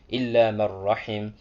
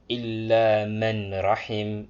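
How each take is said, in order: First: The n sound is dropped and merged into rahim. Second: The n sound is clearly pronounced before rahim. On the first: The speaker calls it right. "read as if the noon didn't exist" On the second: The speaker calls it wrong. "That's wrong"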